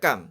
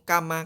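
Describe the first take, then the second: First: The word ends in m with no vowel. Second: The word ends with an a vowel. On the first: The speaker calls it right. "Cara membacanya sukun terus" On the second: The speaker calls it wrong. "Tidak boleh"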